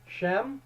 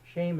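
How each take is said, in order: First: The name is said with an 'eh' vowel. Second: The name is said with an 'ay' vowel. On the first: The speaker calls it wrong. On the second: The speaker calls it right.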